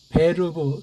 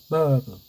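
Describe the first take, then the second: First: The r is rolled in a German style. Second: The r is dropped in an English style. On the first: The speaker calls it right. "발음도 베르브 독일식으로 해야 되는데" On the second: The speaker calls it wrong. "혀 굴리는 식으로 미어로 바뀌는 식"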